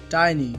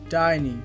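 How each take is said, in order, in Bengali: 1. প্রথম স্বরধ্বনিটি 'eye'-এর মতো শোনায়। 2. প্রথম স্বরধ্বনিটি 'eye'-এর মতো শোনায়।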